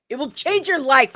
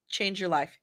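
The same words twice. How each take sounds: First: Higher and louder, punching "your"; insistent second take, "your" stressed high; emphatic repeat. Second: Said in the usual way. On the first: Acted. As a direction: push "your" up hard to insist.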